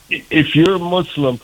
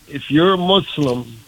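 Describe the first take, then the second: No difference in how they are said.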